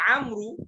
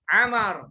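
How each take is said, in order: First: The word ends with an added 'ru' sound. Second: The word ends in a plain 'ar' sound. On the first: The speaker calls it wrong. "kita tidak harus baca amru" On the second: The speaker calls it right. "amar sudah"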